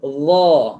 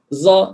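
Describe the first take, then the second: First: The consonant is a voiced 'th'-like sound. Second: The consonant is a buzzing 'z'-like sound. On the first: The speaker calls it right. "Ini makhraj huruf dha yang betul" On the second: The speaker calls it wrong. "Bila sebutan za, za begitu, itu adalah ismam"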